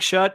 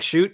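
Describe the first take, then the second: First: The vowel is a short 'uh' sound. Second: The vowel is a long 'oo' sound. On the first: The speaker calls it wrong. "It looks like shut" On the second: The speaker calls it right. "It's pronounced like shoot"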